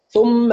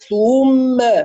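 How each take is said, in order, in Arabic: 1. الحركة تُقرأ بسرعة فتصير قصيرة ومختلسة. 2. الحركة تُمَدّ مدًّا طويلًا جدًا. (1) "أختلس يعني أقرأ الضمة بسرعة" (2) "ولا أمط"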